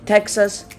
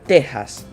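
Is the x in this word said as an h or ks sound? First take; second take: ks; h. First: The x is said as a ks sound. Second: The x is said as an h sound.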